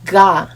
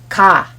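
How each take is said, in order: First: The syllable starts with a voiced g sound. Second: The syllable starts with a voiceless k sound. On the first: The speaker calls it wrong. "This letter doesn't sound like ga" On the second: The speaker calls it right. "but ka"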